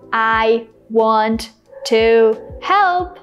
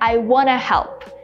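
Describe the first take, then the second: First: 'Want to' is said in full. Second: 'Want to' is reduced to 'wanna'. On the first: "Instead of saying" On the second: "I said"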